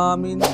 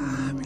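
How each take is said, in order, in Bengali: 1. শব্দটি জোরে বলা হয়েছে। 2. শব্দটি আস্তে বলা হয়েছে। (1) "জোরে আমিন বলি" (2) "অনেকে আস্তে বলে"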